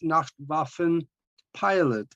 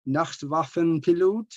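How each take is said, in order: First: The name is said with an English accent. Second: The name is said with a German accent.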